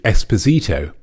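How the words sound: The name is said the Spanish way. The speaker calls it wrong.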